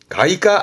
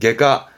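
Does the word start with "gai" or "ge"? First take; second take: gai; ge. First: The first syllable is pronounced "gai". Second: The first syllable is pronounced "ge". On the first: The speaker calls it wrong. "가이과 아닙니다" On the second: The speaker calls it right. "그때 발음은 개로 갑니다"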